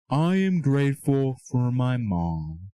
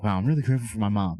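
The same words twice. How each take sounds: First: Slow, dutiful recital of "I am grateful for my mom"; mechanical, unfelt gratitude; rote, empty thanks. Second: A quick, genuine "Wow, I'm really grateful for my mom"; sincere, moved realisation; heartfelt gratitude. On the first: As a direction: say "I am grateful for my mom" slowly, like a chore you don't feel. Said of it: "No, that's not the way you're supposed to do it". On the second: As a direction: let the thanks rush out, actually feeling it. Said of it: "You start feeling it". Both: Shown as a demonstration.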